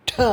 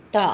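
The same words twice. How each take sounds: First: Breathy retroflex "tha" with a puff on ட; ட as a heavy "tha"; aspirated ட. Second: Plain retroflex "ta", as in Tamil, on டா; unaspirated டா. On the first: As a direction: push extra air out on ட. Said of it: "மகாப்ரான் ட". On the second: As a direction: say டா easily, without a puff. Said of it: "சாதாரணமாக Tamil". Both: Shown as a demonstration.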